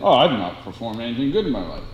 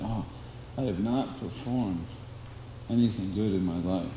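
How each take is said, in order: First: It is said in a plain, matter-of-fact tone. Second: It is said in a humble, emotional tone. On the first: The speaker calls it wrong. "No, you wouldn't say it" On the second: The speaker calls it right. "This would be the mood"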